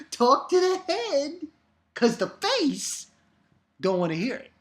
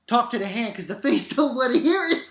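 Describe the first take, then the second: First: Nail the sassy brush-off this time; sassy catchphrase redo. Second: Sassy talk to the hand, a bit fast; sassy catchphrase. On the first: Redoing the catchphrase properly, higher and sassier. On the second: First botched try at the sassy catchphrase. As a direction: brush them off with attitude. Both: Pretend. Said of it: "I didn't do it right".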